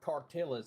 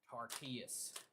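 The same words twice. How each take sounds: First: It is said in a Texan pronunciation. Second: It is said in a non-Texan pronunciation.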